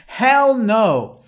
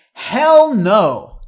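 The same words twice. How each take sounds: First: Loud and higher, HELL punched; emphatic hell no. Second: Loud, higher shout of HELL no; emphatic hell no. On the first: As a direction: throw it out with a grin. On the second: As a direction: bark it out like a flat refusal. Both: Shown as a demonstration. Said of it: "One more emphatic one".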